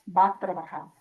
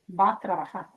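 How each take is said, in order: The two takes are said the same way.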